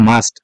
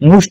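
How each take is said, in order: First: The vowel sounds like uh. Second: The vowel sounds like oo. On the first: The speaker calls it right. "আসলে এটা উচ্চারণ হবে মাস্ট" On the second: The speaker calls it wrong. "এই মাস্টটাকে অনেকে মুড মুস্ট বলে থাকে"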